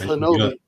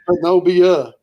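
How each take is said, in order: First: The name ends on an 'ee' sound, no 'ah'. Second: The name ends with an extra 'ah' sound. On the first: This is how the name is really said. "but it's Hanobi" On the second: This is how the name is written. "but it's spelled Hanobia"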